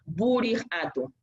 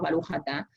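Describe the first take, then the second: First: The vowels shift toward u and i sounds. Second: The vowels are open a sounds throughout. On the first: "una acentuación más húngara" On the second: "Está el sefaradí, como nosotros decimos"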